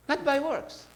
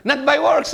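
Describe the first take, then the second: First: Softer, quieter echo of the point; soft repeat. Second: Loud, high emphatic declaration; Not by works, called out loud and high. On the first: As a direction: pull back and say it gently. Preacher repeats the line softly. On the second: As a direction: drive the point home with force. Preacher stresses grace not works. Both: Real, not acted.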